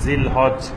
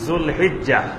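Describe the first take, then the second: First: It begins with 'zil' and ends in 'haj'. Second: It begins with 'zul' and ends in 'hijjah'. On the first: The speaker calls it wrong. "এইভাবে লেখা হয়" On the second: The speaker calls it right. "সঠিক উচ্চারণ হবে"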